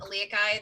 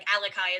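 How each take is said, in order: First: The name keeps the second a vowel. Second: The name leaves out the second a vowel. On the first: The speaker calls it right. "the second A in Aliakai" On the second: The speaker calls it wrong. "everybody like skips the A"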